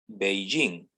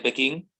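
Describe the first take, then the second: First: The name begins with a B sound. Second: The name begins with a P sound. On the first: This is the current way of rendering the name. "Hoy en día que se utiliza otro sistema" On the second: This is the traditional way of rendering the name. "La clásica, la tradicional dice Pekín"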